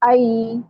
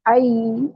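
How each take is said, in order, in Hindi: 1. स्वर 'a' से 'i' की ओर नरमी से फिसलता है। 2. स्वर 'a' से 'i' की ओर नरमी से फिसलता है।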